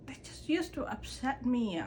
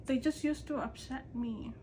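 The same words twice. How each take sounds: The two takes are said the same way.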